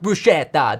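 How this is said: It is said the American way. The speaker calls it wrong. "it's not bruschetta, ... What are you, American?"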